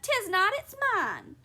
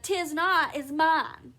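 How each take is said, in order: First: High, loud squabbling retort; childish contradiction. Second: Louder, moderately raised squabbling voice; childish retort. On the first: Husband contradicting wife over towel, high childish retort. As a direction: snap back in a high, petulant voice. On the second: Wife contradicting husband over towel, loud childish retort. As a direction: throw the contradiction straight back. Wife throws same words back. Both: A narrator's reading.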